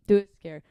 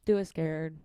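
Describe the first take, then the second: First: Louder, punched repeat; loud rallying repeat; emphatic. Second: Said in the usual way. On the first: Shown as a demonstration. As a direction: shout it like a motto.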